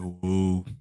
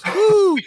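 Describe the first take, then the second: First: The woo sounds flat and sarcastic. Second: The woo sounds genuinely excited and enthusiastic. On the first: The speaker is not really happy about the show. "a sarcastic woo either, like it was for Andor" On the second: The speaker is truly happy about the show. "This one might be an actual, like, excited woo"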